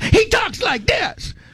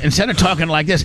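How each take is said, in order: First: It is said forcefully, with high energy. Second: It is said in a calm, ordinary way.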